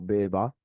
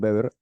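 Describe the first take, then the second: First: It is pronounced with German-style sounds. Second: It is pronounced with Spanish-style sounds.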